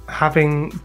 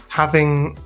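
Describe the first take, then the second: No difference in how they are said.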